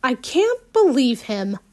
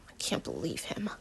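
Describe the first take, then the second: First: Said in the usual way. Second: Whispered, lower and much softer; helpless mutter. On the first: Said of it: "I muttered helplessly". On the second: Acted. Alex muttering to himself after losing the argument, helpless whisper. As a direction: mutter it under your breath, helpless. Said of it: "I mutter helplessly".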